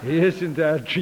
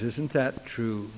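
First: Said in the usual way. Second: Low, slow, softened question; quiet question. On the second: Retold or imitated. Preacher pressing the young convert on her answer, quiet and slow. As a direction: ask it quietly, drawing it out. Question put softly, then louder.

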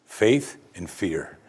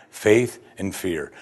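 The two takes are said the same way.

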